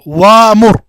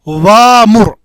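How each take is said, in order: The two takes are said the same way.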